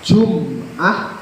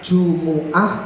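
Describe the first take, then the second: First: No vowel follows the m. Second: A u vowel follows the m. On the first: "memnya disukun" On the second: "bisa didhamah Jumu'ah, ini yang fasih afdhal"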